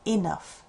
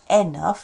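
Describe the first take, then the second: First: The first vowel is a short 'ih' sound. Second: The first vowel is a weak 'uh' sound. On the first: The speaker calls it right. "it's I" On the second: The speaker calls it wrong. "it's not enough"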